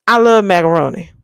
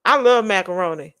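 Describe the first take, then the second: First: Louder, faster I love macaroni; excited food declaration; louder gushing repeat. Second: Said in the usual way. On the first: Pretend. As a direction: blurt it out with gusto.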